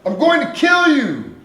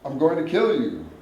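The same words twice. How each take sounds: First: It is screamed loudly and forcefully. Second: It is said without much force.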